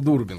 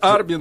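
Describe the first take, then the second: First: The first vowel of the name sounds like oo. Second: The first vowel of the name sounds like ar. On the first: This is how people at home know the name. "Наши люди знают ее как Дина Дурбин" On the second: This is how the name is said abroad. "Дарбин это там"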